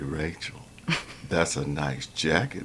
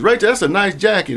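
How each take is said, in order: First: It is said in a leering, suggestive tone. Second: It is said in a plain, friendly tone. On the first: It comes across as harassment. "a harassment complaint" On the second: It is a sincere compliment. "a compliment"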